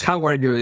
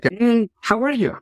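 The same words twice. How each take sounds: First: Said in the usual way. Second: Sing-song passing "how are you?", much higher; breezy greeting. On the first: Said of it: "is just another way to say". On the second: Retold or imitated. Colleague greeting in passing at work, mock sing-song. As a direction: toss off "how are you?" lightly while walking past. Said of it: "a colleague at work, something like".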